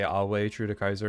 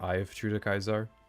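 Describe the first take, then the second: First: Ave is said with a W sound. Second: Ave is said with a V sound. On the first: The speaker calls it right. "V's are uh, W sound" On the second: The speaker calls it wrong.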